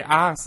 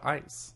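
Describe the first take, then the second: First: "ice" with a flattened Southern vowel, like "ahs"; country pronunciation. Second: Said in the usual way. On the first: Shown as a demonstration. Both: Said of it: "say ice instead of ice".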